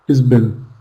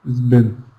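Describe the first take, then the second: First: He and has merge into one short syllable. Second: He and has merge into one short syllable.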